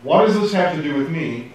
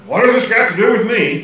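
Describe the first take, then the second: First: Said in the usual way. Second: High, loud snotty retort; mock-snotty, raised-pitch protest. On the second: Shown as a demonstration. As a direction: push it back with snotty indignation. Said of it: "it sounds really snotty".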